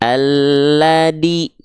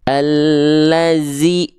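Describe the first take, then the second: First: The middle consonant is a plain d sound. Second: The middle consonant is a hissing z sound. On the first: "Banyak orang melafalkannya gini. ... jadi huruf dal" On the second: "jangan dibaca menjadi huruf zai"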